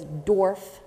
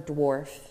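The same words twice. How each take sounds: First: The word is said with a childlike mispronunciation. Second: The word is said with its standard pronunciation. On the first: A small child said it this way. The speaker calls it wrong. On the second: This is the intended word. The speaker calls it right.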